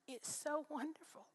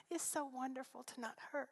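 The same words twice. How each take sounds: First: Breathy, choked-up whisper of relief; tearful whisper. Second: Softer, still near tears but voiced; tearful, half voiced. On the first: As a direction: whisper it through tears, slowly. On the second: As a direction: say it again with voice coming back through tears. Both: Real, not acted. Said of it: "I began to cry again".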